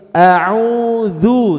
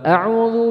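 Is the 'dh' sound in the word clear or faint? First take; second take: clear; faint. First: The 'dh' sound is voiced clearly and firmly. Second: The 'dh' sound is faint and nearly lost. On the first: The speaker calls it right. "tapi a'udzu" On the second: The speaker calls it wrong. "jangan dibaca a'udzu billah u u hilang"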